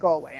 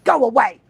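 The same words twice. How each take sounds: First: It is said calmly. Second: It is said sternly.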